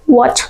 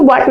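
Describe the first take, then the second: First: व्हाट with rounded w and final t released like "ch"; soft-released WHAT. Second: Said in the usual way. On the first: Shown as a demonstration. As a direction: say व्हाट as "wotch". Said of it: "क्या पढ़ना है?". (व्हाट को "वॉच" जैसा बोलें) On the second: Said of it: "वाट नहीं पढ़ना है".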